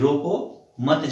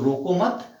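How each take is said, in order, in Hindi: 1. विराम 'roko' के ठीक बाद आता है। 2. विराम 'mat' के ठीक बाद आता है। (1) "कि रोको, मत जाने दो" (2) "मत के बाद अगर हमने अल्प विराम का प्रयोग किया"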